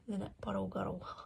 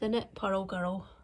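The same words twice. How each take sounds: First: It is spoken in an English accent. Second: It is spoken in a Scottish accent. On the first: The speaker calls it right. "Much better in an English accent" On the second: The speaker calls it wrong. "which I never think sounds right in a Scottish accent"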